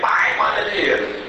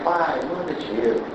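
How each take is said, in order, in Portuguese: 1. O pedido soa duro e exigente. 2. O pedido soa suave e suplicante. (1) "quando você não quer dar dinheiro, você lê" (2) "Quando é mãe que quer mandar dinheiro"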